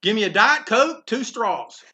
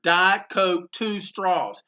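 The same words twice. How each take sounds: First: Loud and higher, hailing the vendor; calling out an order. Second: Said in the usual way. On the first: Retold or imitated. Eisner orders loudly from the push cart vendor, calling out. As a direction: call the order over the counter. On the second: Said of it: "Just for historical reference".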